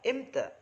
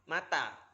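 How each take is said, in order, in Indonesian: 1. Diucapkan dalam dialek Mesir sebagai imta. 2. Diucapkan dalam Arab Standar sebagai mata. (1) "dalam Amyah Mesir atau Misr itu imta" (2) "Mata dalam bahasa Arab Fushah itu mata"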